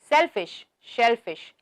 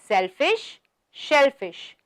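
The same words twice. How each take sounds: First: The phrase is said at a faster pace. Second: The phrase is said at a slower pace.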